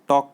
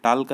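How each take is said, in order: First: The L is silent in the word. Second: The L is sounded in the word. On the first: The speaker calls it right. "टॉक बोला जाता है" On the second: The speaker calls it wrong. "नहीं है"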